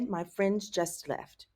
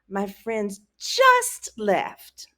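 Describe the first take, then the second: First: The sentence is said plainly, without special emphasis. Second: The word 'just' is strongly emphasized. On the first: The friends left recently. "in English I would say" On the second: The friends left only a moment ago. "You see that emphasis?"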